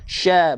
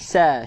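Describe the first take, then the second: First: It begins with an sh sound. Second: It begins with a plain s sound. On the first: The speaker calls it right. "sya, bukan sa" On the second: The speaker calls it wrong. "bukan sa"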